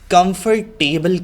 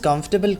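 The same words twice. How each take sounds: First: Every letter is pronounced clearly and fully. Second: Some middle sounds are reduced or dropped. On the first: The speaker calls it wrong. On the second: The speaker calls it right.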